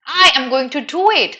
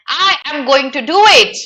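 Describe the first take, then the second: First: Proper formal. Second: Higher, louder, overly formal full form; stiff and proper. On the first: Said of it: "How did it sound? Very proper". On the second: Teacher demoing the tone-deaf formal version. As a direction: say every word properly, no contractions. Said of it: "It would have been tone deaf if this character said". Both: Shown as a demonstration.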